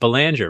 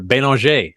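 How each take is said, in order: First: It is said with an American pronunciation. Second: It is said with a French pronunciation.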